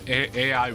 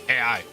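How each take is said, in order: First: The letters are said slowly and clearly. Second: The letters are rushed together too quickly.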